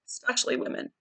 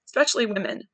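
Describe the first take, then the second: First: Softly whispered repeat of "especially women". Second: Said in the usual way. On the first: Shown as a demonstration. Repeats phrase, then whispers it.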